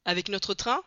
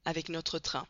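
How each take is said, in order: First: Surpris, montée sur train; le colonel n'en revient pas; question étonnée. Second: Plus doux, ton qui tombe; le mécanicien répond au colonel, posément; confirmation calme. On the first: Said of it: "demanda le colonel". (question surprise) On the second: (réponse calme et basse) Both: A narrator's reading.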